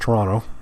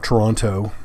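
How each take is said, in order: First: The second T sound is left silent. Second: The second T sound is clearly pronounced. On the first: The speaker is a local Ontarian. The speaker calls it right. "last T silent if you're a local" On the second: The speaker is a visitor, not a local. The speaker calls it wrong. "not Toronto"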